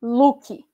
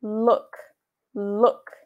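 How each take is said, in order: First: "look" with an added final i, luki; wrong spelling-based look. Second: "look" ending clipped on the k, lok; correct look. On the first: Teacher shows the wrong Brazilian way to say "look". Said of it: "você não vai escrever". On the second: Teacher shows students the right way to say "look". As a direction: end "look" cleanly on the k. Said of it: "Você vai escrever". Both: Shown as a demonstration.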